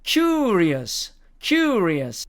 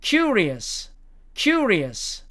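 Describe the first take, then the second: First: "curious" with a drawn-out yoo; American, with length mark. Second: "curious" with a shorter yoo; American, without length mark. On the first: Teacher saying each case twice, long American vowel. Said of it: "붙이는 경우입니다". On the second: Teacher saying each case twice, short American vowel. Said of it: "안 붙이는 경우입니다". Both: Shown as a demonstration.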